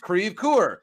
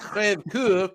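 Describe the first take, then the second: First: The name is pronounced the English way. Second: The name is pronounced the French way. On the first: The speaker calls it right. "it's Crève Coeur" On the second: The speaker calls it wrong. "it's not Crève Coeur"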